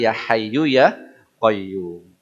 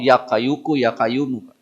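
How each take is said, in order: First: A clear h sound begins the second word. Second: The h sound is replaced by a k sound. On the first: The speaker calls it right. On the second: The speaker calls it wrong. "Saking orang Jawa repot gak mau"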